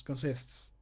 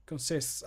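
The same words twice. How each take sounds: First: "Consists" with crisp final S's. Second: "consists" spoken slowly, every S clear. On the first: Checking the word, clear crisp "Consists". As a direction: sound out "Consists" carefully. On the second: Practising the line, saying "consists" slowly and clearly. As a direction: sound out "consists" carefully. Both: Shown as a demonstration. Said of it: "that's how it sounds".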